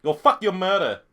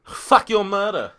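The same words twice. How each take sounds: First: Put-on Asian accent, slightly raised; mock Asian-accented insult. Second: Slow, higher put-on Asian accent; drawn-out mock Asian-accented curse. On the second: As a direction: stretch it out in a caricatured Asian accent. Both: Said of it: "Do your best Asian accent".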